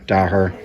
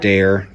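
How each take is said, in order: First: "Daher" said as DAH-her; alternative pronunciation. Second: "Daher" said as DAY-er; first pronunciation. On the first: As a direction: say "Daher" with an open AH and a sounded h. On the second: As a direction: say "Daher" like "dare", with an AY sound and silent h. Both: Shown as a demonstration. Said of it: "depending on how you pronounce it".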